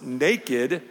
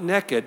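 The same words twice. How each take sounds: First: The word is said with a standard accent. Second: The word is said with a Southern accent.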